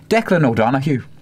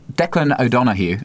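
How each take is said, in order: First: It is said in an Irish accent. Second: It is said in the speaker's ordinary accent.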